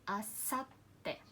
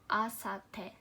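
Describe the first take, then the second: First: A short stop comes just before the t. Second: The t follows smoothly with no short stop. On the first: "by adding this small two, uh, you can put the stress on the letter one before" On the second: "if I say this letter without small two, that's gonna be asate"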